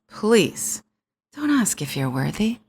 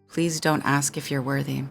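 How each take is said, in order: First: It is said with strong emphasis. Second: It is said flatly, without emphasis.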